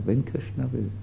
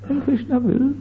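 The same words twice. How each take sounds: First: It is said in a plain, earnest, sincere tone. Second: It is said in a vague, dismissive, teasing tone. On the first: The speaker truly depends on a higher will. The speaker calls it right. "für Bhaktisiddhanta Saraswati Thakur war das so" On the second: The speaker is brushing the other person off. The speaker calls it wrong. "manchmal tun wir so sprechen, wenn wir andere ärgern wollen"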